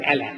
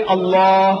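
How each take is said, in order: First: Short "Allah" with thin front vowels, "AL-la"; clipped English-style "Allah", "AL-la"; mispronounced Allah. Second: Loud, stretched "Allah" with dark L, "ol-LAAH"; correct Allah pronunciation. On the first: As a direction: say "Allah" with a light L and flat "a" as in "cat". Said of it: "See, not Allah". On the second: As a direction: hold the open back vowel ending "Allah". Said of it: "Say Allah". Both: Shown as a demonstration.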